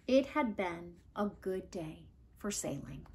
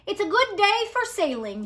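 First: Soft closing line. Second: Grandfather's voice. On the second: Remembered grandfather line. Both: A narrator's reading.

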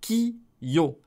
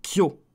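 First: "ki-yo" split into two slow beats; "ki-yo" with a gap after ki; two separate syllables. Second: "kyo" fused into a single beat; "kyo" with no break inside; one syllable. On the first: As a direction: say ki, then yo, apart. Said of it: "si lui il était à grandeur normale". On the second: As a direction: glide straight from k into yo in "kyo". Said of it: "C'est en une seule". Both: Shown as a demonstration.

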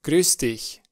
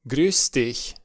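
No difference in how they are said.

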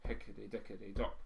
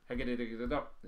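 First: Evenly spaced drum syllables; slightly slower roll. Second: Rattled-off drum syllables; too-fast drum roll. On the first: Teacher fitting a thirteen at slower speed, slightly slower roll. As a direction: voice the roll with a little more room. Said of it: "if it's a bit slower". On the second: Teacher showing a thirteen won't fit, too-fast drum roll. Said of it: "It's far too fast". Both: Shown as a demonstration.

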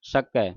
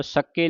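First: ਸਕੈ ending in an open ai, low falling pitch; correct pronunciation demo. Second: ਸਕੇ ending in a closed e; wrong pronunciation demo. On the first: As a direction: widen the final vowel, ਸਕੈ as "sakai". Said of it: "ਦਲਾਵਾਂ ਦੇ ਨਾਲ". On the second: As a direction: narrow the final vowel, ਸਕੇ as "sake". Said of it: "ਸਕੇ ਨਹੀਂ ਕਹਿ ਦੇਣਾ". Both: Shown as a demonstration.

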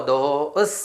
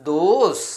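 First: Said in the usual way. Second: "those" said louder and firmer, with a falling finish; teacher repeats the word with emphasis; emphatic model. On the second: Shown as a demonstration. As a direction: punch the word those for the class to copy. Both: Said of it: "എന്താണ് വായിക്കുക?".

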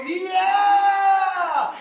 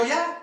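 First: High, long-held crowd cheer; huge drawn-out yeah. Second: Higher, softer, rising yeah; small eager reply. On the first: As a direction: stretch the yeah into an eager howl. Crowd's final escalated answer. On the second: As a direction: answer small, pitch lifting. Crowd's first hesitant answer, before escalating. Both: Retold or imitated.

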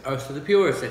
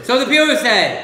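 First: Said in the usual way. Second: Slow, high, loud proclamation. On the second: Shown as a demonstration. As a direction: declaim it grandly and slowly.

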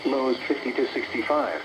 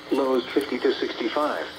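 The two takes are said the same way.

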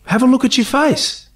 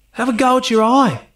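First: Quoted line, pointing. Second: Altered ad-lib line. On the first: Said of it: "his line is". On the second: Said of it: "he changed it every time". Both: Retold or imitated.

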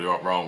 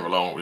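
First: Said in the usual way. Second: "wrong" with a stray L, like "ruh-long"; tongue-twisted "wrong", coming out as "rlong"; mispronounced wrong. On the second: Real, not acted. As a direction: slip an L after the R in "wrong". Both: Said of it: "How the hell did I put an L".

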